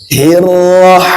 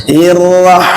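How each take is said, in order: No difference in how they are said.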